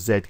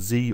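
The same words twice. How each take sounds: First: The letter is said the British way, zed. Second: The letter is said the American way, zee.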